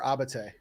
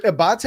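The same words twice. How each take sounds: First: "Abate" as AH-buh-tay, stress on AH; Abate, first-syllable stress. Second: "Abate" as uh-BAH-tay, stress on BAH; Abate, second-syllable stress. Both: Shown as a demonstration. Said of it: "Is it Abate or Abate?".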